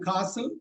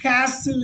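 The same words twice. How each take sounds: First: It is said in a British accent. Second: It is said in an American accent. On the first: "that's a uh, British pronunciation" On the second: "castle is American pronunciation"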